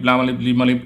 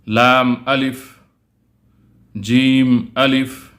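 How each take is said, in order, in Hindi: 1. अक्षरों के नाम जल्दी-जल्दी एक साथ मिलाकर पढ़े जाते हैं। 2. अक्षरों के नाम धीरे-धीरे और अलग-अलग पढ़े जाते हैं।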